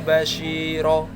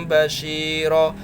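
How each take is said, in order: No difference in how they are said.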